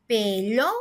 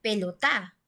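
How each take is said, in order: First: Pelota broken up, "lo" stretched and rising, then "ta"; stress on second-to-last syllable. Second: Pelotá with the stress pushed onto the final "tá"; stress on last syllable. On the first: Teacher demonstrating the stressed syllable of pelota, "lo" held long and rising. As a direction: draw out and lift the "lo" in pelota. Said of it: "estuviera en la penúltima sílaba". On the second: Teacher showing pelotá as we don't say it, final syllable stressed. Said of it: "tendríamos que pronunciar pelotá". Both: Shown as a demonstration.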